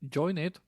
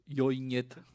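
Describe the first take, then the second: First: It is said with ordinary English pronunciation. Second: It is said with Slovak-style pronunciation.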